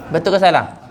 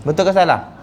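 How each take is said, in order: The two takes are said the same way.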